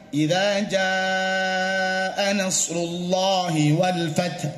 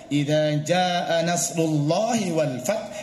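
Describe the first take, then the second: First: The long vowels are held for their full length. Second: The long vowels are cut too short. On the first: The speaker calls it right. "yang tadinya misalnya" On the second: The speaker calls it wrong. "hanya kurang panjang"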